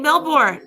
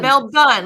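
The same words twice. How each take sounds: First: The last syllable sounds like 'born'. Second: The last syllable sounds like 'bun'. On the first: This is how Americans say it. The speaker calls it wrong. "We say Melbourne" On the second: This is how locals say it. The speaker calls it right. "like a bun in the oven?"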